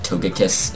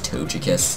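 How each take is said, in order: First: The G is said hard, like in go. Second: The G is said soft, like a J. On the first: The speaker calls it wrong. "it sounds very harsh" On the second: The speaker calls it right. "I say the soft G ... it's just easier to say as Togekiss. Like it just flows better"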